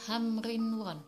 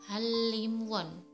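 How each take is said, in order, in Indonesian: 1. Konsonan tengah terdengar seperti n dan r. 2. Konsonan tengah terdengar seperti l. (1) "harusnya dibaca hamrinwon" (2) "yang benar pengucapannya adalah halimwon"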